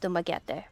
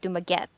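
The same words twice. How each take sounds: First: The name does not end like baguette. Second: The name ends like the word baguette. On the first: The speaker calls it right. "It's Dumaguete" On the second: The speaker calls it wrong. "which makes me think of baguette"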